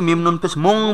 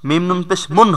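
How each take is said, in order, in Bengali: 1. শেষ অক্ষরটি নাসিক্য ng দিয়ে শেষ হয়। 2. শেষ অক্ষরটি সাধারণ n দিয়ে শেষ হয়। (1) "এটা বানানে ভুল" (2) "বানানের সময় মিম নুন পেশ মুন হবে"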